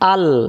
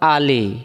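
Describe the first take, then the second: First: The word ends on a bare consonant sound. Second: The word ends with a short vowel sound. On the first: The reader stops to take a breath here. "দম ফেলার জায়গা থাকে তখন আলি থেকে উচ্চারণটা হয়ে যাবে আল" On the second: The reading continues without stopping. "উচ্চারণ হলো আলি"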